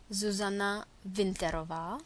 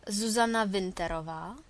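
No difference in how they are said.

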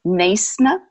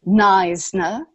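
First: Neisner in an Afrikaans accent, NAYS-nuh; Afrikaans-accented Neisner with a hissed S. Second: Neisner in an English accent, NIZE-nuh; English-accented Neisner with a long I and a buzzed Z. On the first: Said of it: "In Afrikaans accent". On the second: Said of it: "again with an English accent". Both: Shown as a demonstration.

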